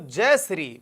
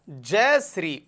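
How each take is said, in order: First: Said in the usual way. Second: "जय Shri" said slowly, each word drawn out; slow it down so students can memorise it; slow, spelled-out mnemonic. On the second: Shown as a demonstration. (धीरे-धीरे, रटाने के अंदाज़ में) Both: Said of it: "मैंने कहा जय श्री".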